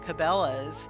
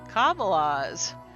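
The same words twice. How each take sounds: First: The stress is on the second syllable. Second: The stress is on the first syllable. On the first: "like the common pronunciation" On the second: "If we stress the first syllable instead of the second"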